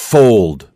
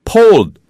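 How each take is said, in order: First: The word begins with a strong F sound. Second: The word begins with a P sound. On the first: The speaker calls it right. "the F is strong" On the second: The speaker calls it wrong. "If you have a P sound, it sounds like this"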